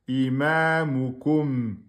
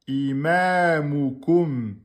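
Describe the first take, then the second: The two takes are said the same way.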